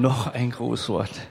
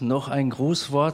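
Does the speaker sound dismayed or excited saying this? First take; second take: dismayed; excited. First: It is said in a weary, dismayed tone. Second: It is said in an excited, eager tone. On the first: Another greeting speech is unwelcome. "oh no" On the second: Another greeting speech is welcome.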